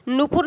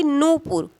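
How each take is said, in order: First: नूपुर with short opening vowel, nu-pur; wrong form. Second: नूपुर with long opening oo, noo-pur; correct form. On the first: Teacher showing students the wrong word, wrong form. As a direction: keep the first syllable of नूपुर short. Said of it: "नूपुर नहीं बल्कि". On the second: Teacher correcting the word for students, correct form. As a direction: stretch the first syllable of नूपुर. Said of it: "बल्कि नूपुर". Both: Shown as a demonstration.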